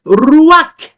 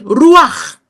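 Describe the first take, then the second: First: Said in the usual way. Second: Ruach drawn out slowly, the ch rasped. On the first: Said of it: "tenemos un ejemplo". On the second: Shown as a demonstration. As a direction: linger on Ruach. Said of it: "o bien Ruach". (Ruach lento y marcado)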